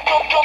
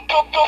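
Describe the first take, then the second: The two takes are said the same way.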